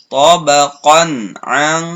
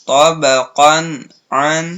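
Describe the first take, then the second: No difference in how they are said.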